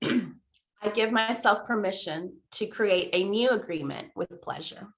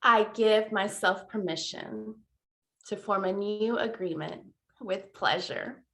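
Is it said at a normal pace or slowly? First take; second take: normal pace; slowly. First: It is said at a normal pace. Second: It is said slowly and deliberately.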